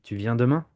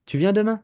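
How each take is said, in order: First: "Tu viens demain" kept level as a statement; no question lift on "demain"; matter-of-fact French statement "Tu viens demain"; statement intonation. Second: "Tu viens demain" pitched high, climbing to "demain"; French question made by rising pitch on "demain"; question intonation. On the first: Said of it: "Can you hear the difference?". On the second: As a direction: raise "demain" sharply into a question. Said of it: "you put a small intonation on it". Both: Shown as a demonstration.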